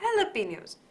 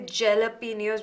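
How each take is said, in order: First: The word begins with an H sound. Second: The word begins with a J sound. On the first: The speaker calls it right. "the J is pronounced as H" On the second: The speaker calls it wrong. "We don't say jalapenos"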